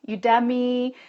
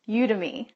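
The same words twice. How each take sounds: First: It is said like the word academy. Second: It is said unlike the word academy. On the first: "because you think of academy" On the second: "the way they were pronouncing it was Udemy"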